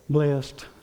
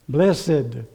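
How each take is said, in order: First: It is said the everyday street way. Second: It is said the formal church way. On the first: "What do you say out there?" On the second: "If you're in church, how do you say that?"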